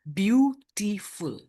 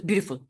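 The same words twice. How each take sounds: First: "beautiful" in three slow, separate beats; syllable by syllable. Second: "beautiful" run together quickly as one unit; all in one go. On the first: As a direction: break "beautiful" apart, pausing after each syllable. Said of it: "No, we pronounce this as beautiful". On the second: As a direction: rush "beautiful" out without syllable breaks. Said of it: "We don't pronounce it as beautiful". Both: Shown as a demonstration.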